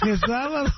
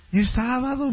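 First: Higher, put-on voice for the wife; wife telling her husband it's Saturday; amused wife's voice. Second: Said in the usual way. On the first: Wife's repeated deadpan retort.

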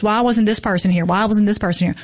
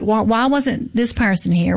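First: Said in the usual way. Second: Catty. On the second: Retold or imitated. Festival organiser mimics people questioning the lineup, catty. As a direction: imitate a catty complainer, lightly stretched. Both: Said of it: "didn't mean to say it in that catty voice".

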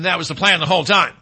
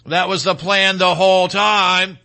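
First: Said in the usual way. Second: "That was the plan the whole time" slowed right down, each word weighted; slow, deliberate stress through to "whole time"; emphatic repeat. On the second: Real, not acted. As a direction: stretch out "whole time" to hammer it home.

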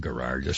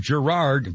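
First: "Gerard" said with a hard G, low and quiet, rising at the end; "Gerard" opening on a hard g like in go, muttered low. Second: "Gerard" said with a soft French zh sound, zhe-RARD; "Gerard" opening on a zh like in measure. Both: Shown as a demonstration. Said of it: "Sam Gerard in The Fugitive".

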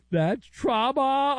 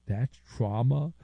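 First: High, slow mock panic over "That's trauma."; higher slowed mock wail on "That's trauma."; mock shriek. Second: Said in the usual way. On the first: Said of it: "mock shriek version". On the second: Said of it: "deadpan then mock shriek".

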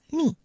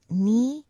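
First: "ni" short and stressed on a firm n; correct ni. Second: "ni" mispronounced with a long rising vowel and a plain n; wrong ni. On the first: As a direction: give "ni" a quick firm stress. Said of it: "It's ni". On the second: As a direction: let "ni" stretch and rise, without stress on the n. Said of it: "Remember, it's not ni". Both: Shown as a demonstration.

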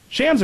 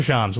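First: "Shams" with the short A of "hams"; short-A pronunciation. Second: "Shams" with an open "ah" vowel; broad-A pronunciation. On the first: Host offers co-host two pronunciations, "Shams" with short A. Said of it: "Shams or Shams? What do you go with?". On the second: Host offers co-host two pronunciations, "Shams" with broad ah. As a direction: say "Shams" as "Shahms". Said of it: "What do you go with?". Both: Shown as a demonstration.

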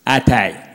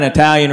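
First: "Italian" said as EYE-talian; small-town mispronunciation. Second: Said in the usual way. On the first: Retold or imitated. Brother-in-law naming the new restaurant, "Italian" as EYE-talian. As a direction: start "Italian" with a long "eye" sound. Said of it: "He's like". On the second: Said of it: "they finally got an Italian restaurant".

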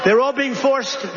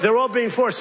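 First: They're ALL being forced, slow and raised; emphatic repeat. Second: Said in the usual way. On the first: Shown as a demonstration. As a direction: drive the point home word by word.

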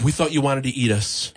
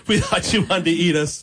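First: Said in the usual way. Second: Laughing repeat. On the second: Retold or imitated. Retelling the relief to the host, laughing. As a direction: still laughing through the line.

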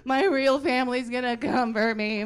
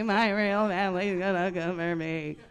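First: Freaking out. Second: Freaking out, repeated. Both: Retold or imitated. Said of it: "She started freaking out".

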